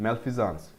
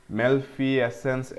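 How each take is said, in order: First: Malfeasance said "mel-FEE-zuns", stress on the second syllable; correct pronunciation. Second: Malfeasance said slowly as "mel-fee-ay-sense", the guessed wrong way; drawn-out wrong try at Malfeasance, stretching each part; mispronounced tentative guess. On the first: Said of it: "this is pronounced malfeasance". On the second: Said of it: "ऐसा कुछ प्र-, pronounce करोगे क्या?". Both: Shown as a demonstration.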